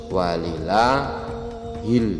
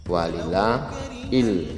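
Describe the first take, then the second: The two takes are said the same way.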